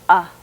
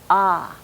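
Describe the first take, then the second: First: The vowel is held briefly. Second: The vowel is held for longer. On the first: "a short vowel" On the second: "a long vowel"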